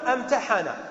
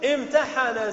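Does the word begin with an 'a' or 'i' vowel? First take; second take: a; i. First: The first vowel is an open 'a' sound. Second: The first vowel is an 'i' sound. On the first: The speaker calls it wrong. "لا نقول امتحن" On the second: The speaker calls it right. "نكسرها، نقول امتحن"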